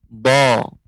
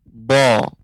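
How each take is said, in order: The two takes are said the same way.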